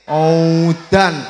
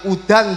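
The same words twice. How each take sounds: First: The word is stretched out long. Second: The word is said at normal length. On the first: It is raining very hard. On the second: It is raining.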